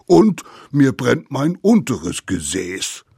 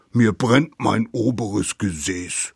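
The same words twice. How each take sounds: First: Loud, higher, punched "Und" and "unteres"; escalating complaint. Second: Indignant "oberes Gesäß", first half of a grievance; aggrieved complaint. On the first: Mammoth adds another sore spot, louder "unteres". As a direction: top the grievance, hitting "unteres" harder. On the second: Mammoth lists its sore spots, aggrieved "oberes". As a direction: complain firmly, marking "oberes". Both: A narrator's reading.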